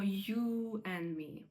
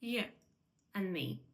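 First: The word you is said with a full vowel. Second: The word you is reduced with a weak vowel. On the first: The speaker calls it wrong. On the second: The speaker calls it right.

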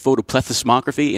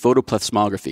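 First: Every syllable of the word is pronounced. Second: One syllable of the word is dropped. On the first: The speaker calls it right. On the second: The speaker calls it wrong.

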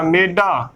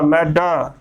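First: The first vowel is a closer 'e' sound. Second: The first vowel is an open 'ai' sound. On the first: The speaker calls it wrong. "ਸੰਗਤਾਂ ਕਈ ਕਿਵੇਂ ਉਚਾਰਨ ਕਰ ਦਿੰਦੀਆਂ ਨੇ, ਮੰਮੇ ਨੂੰ ਲਾਮਾ ਮੇ ... ਮੇਡਾ ਗਲਤ ਉਚਾਰਨ ਹੋਵੇਗਾ" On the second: The speaker calls it right. "ਮੰਮੇ ਨੂੰ ਦੁਲਾਮਾ ਮੈਂ, ਡੱਡੇ ਨੂੰ ਕੰਨਾ ਡਾ, ਮੈਡਾ। ... ਇਸ ਦਾ ਉਚਾਰਨ ਇਸੇ ਤਰ੍ਹਾਂ ਹੀ ਕਰਨਾ ਹੈ"

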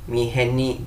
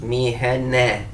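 First: The word ends with an 'i' sound. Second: The word ends with an 'e' sound. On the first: The speaker calls it wrong. "Miheni değil, iyili yapmıyoruz bunu" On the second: The speaker calls it right. "esrelere normal Türkçe'deki e sesi veriyoruz"

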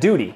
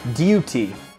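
First: It is said in an American accent. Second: It is said in a British accent. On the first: "instead of duty" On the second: "And they say duty"

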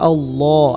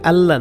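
First: The l sound is heavy and thick. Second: The l sound is light and thin. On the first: The speaker calls it right. "আল্লাহ শব্দকে মোটা করব" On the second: The speaker calls it wrong. "এটা আল্লাহ না"

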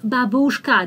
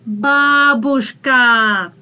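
First: The stress is not on the first syllable. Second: The stress is on the first syllable. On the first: The speaker calls it wrong. "That's not бабушка" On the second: The speaker calls it right. "that's бабушка. А is stressed"

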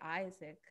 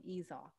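First: The name is said in plain English style. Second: The name is said with an Ojibwe accent. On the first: "they couldn't say Isaac" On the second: "they had an accent, because they only spoke Ojibwe"

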